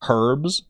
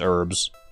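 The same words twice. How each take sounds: First: The word begins with a pronounced H sound. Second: The word begins with a silent H. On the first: "should I be saying herbs?" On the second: "Silent H and all"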